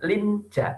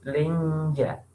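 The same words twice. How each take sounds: First: The n sound is pronounced fully and clearly. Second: The n sound is hidden and nasalized. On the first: The speaker calls it wrong. "bukan linja" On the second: The speaker calls it right. "tapi linja"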